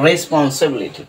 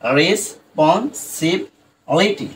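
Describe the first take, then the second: First: Said in the usual way. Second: রেসপন্সিবিলিটি drawn out slowly in separate syllables; slow broken-up responsibility. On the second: Shown as a demonstration. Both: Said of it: "ভেঙে ভেঙে খুব সহজেই উচ্চারণ করতে পারি".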